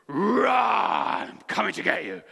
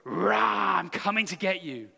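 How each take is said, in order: First: It is said with great energy and force. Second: It is said with moderate energy.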